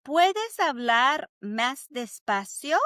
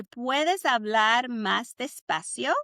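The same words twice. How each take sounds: First: Spoken slowly for students to repeat; slow Spanish model. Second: Slowly, syllable by syllable; slow it down for practice; slow Spanish model again. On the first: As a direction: say each word slowly and clearly. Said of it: "Say it with me". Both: Shown as a demonstration.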